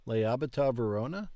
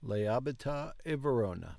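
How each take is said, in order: First: Lei abita a Verona? with a clear rise at the end, a bit faster; question tune. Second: Lei abita a Verona. falling flat at the end; statement tune. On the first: Learner practising the app's question with a rising end. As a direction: ask it, lifting Verona at the end. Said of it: "we use rising intonation at the end". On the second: Learner practising the same line as a plain statement with a falling end. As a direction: state it, letting Verona fall. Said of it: "That sounded like a question". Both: Shown as a demonstration.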